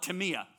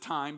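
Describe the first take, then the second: First: It is said as Greek speakers say it. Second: It is said as an English reader would say it. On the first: "but the Greeks call it timia" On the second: "you would pronounce it time"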